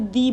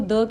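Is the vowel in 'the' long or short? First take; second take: long; short. First: The vowel is a long 'ee' sound. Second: The vowel is a short, weak 'uh' sound. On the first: "कुछ लोग इस word को दी भी कहते हैं" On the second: "कुछ लोग इस वर्ड को द कहते हैं"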